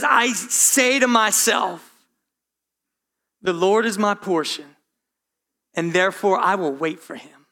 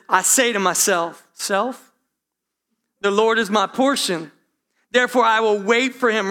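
First: Calm words spoken to yourself; talking to himself. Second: A touch louder, building preacher voice; firm self-sermon, building; preaching to himself. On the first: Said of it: "He's talking to himself". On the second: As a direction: preach it to yourself with rising conviction. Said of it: "he's preaching himself". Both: Retold or imitated.

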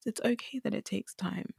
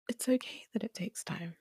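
First: Said in the usual way. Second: Soft whisper. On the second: Real, not acted. Reassuring listener it takes time, whispered. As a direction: repeat it in a softer whisper.

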